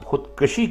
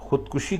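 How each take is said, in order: First: The middle syllable has an 'a' vowel. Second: The middle syllable has a 'u' vowel. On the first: The speaker calls it wrong. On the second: The speaker calls it right.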